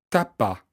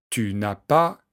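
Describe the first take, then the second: First: Tu is shortened to t' and ne is dropped. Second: Tu is full and ne is pronounced. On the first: This is casual everyday speech. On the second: This is the standard form.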